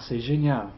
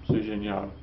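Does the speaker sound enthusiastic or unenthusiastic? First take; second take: enthusiastic; unenthusiastic. First: It is said with enthusiasm and energy. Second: It is said flatly without enthusiasm. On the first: The speaker really likes the class. The speaker calls it right. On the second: The delivery contradicts the positive words. The speaker calls it wrong. "You wouldn't say, ... that doesn't match"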